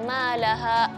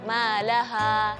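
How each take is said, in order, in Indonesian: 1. Vokal akhir dipotong dengan berhenti. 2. Vokal akhir dilepas dan dipanjangkan. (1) "jangan ma laha. ... Jadi bukan hamzah di ujung"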